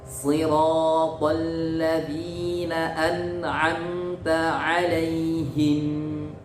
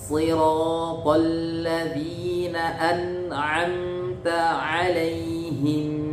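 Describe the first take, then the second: No difference in how they are said.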